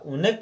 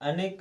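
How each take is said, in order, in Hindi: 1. शब्द छोटी 'oo' ध्वनि से शुरू होता है। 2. शब्द 'a' ध्वनि से शुरू होता है। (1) "उनिक ना पढ़ करके" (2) "अनिक ना पढ़ के"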